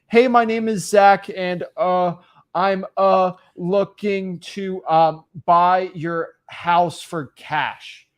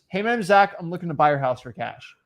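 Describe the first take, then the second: First: It is said with hesitant pauses and fillers. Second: It is said smoothly without any pauses.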